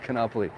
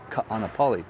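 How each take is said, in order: First: The first two vowels merge into one. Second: The first two vowels are said separately. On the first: The speaker calls it wrong. "it's not Kanapali" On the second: The speaker calls it right. "you almost like pronounce every, you know, everything"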